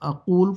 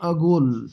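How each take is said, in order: First: The middle consonant is a deep throat q sound. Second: The middle consonant is a hard g sound. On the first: "قاف قرآن والی جو قاف ہے" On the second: "بحرینی لہجے کے اندر یہ گاف میں چینج کر دیتے ہیں"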